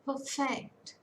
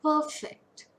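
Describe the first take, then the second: First: "Perfect" as per-FECT; second-syllable stress. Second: "Perfect" with PER high and loud; strong first syllable in "Perfect", weak second; first-syllable stress. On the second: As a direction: say PER-fect, punching PER. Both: Shown as a demonstration.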